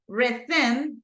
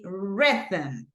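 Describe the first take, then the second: First: The stress is on the second syllable. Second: The stress is on the first syllable. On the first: The speaker calls it wrong. "I don't say rhythm" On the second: The speaker calls it right. "Because the stress goes in this part"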